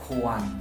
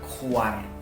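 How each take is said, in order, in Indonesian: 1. Kata ini berakhir dengan bunyi N. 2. Kata ini berakhir dengan bunyi R. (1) "tapi kuan" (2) "bukan kuar"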